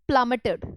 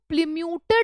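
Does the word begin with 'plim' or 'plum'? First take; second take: plum; plim. First: The word begins with 'plum' and ends 'meted'. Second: The word begins with 'plim' and ends 'myooted'. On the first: The speaker calls it right. "It is प्लमेटेड ऐसे बोला जाता है" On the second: The speaker calls it wrong. "इसको प्लिम्यूटेड मत बोलना"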